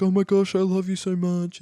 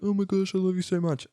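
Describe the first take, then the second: First: Hammed-up tearful love declaration; mock gushing. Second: A hint of a teen girl gushing back, higher and softer; mock gushing reply. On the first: Cam on the sat phone gushing to his sister, mock emotional. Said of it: "Cam's like". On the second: Chloe answering her brother on the phone, softer mock gushing. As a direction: echo the love line more gently. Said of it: "and Chloe's like".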